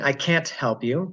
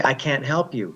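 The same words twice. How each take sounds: First: "can't" with an audible t before "help"; released T. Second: "can't" with the t swallowed into "help"; unreleased T. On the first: Teacher showing what she's not saying, pronounced T. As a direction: sound the final t of "can't". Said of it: "I'm not saying". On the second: Teacher giving the natural example, silent final T. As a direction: glide from "can't" straight to "help". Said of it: "For example, if I say". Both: Shown as a demonstration.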